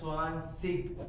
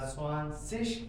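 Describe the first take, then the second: First: The final g is said as k. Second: The final g is said as sh. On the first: "गा बनाओ, गा।" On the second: "last पे जी को शीन बनाओ, शी।"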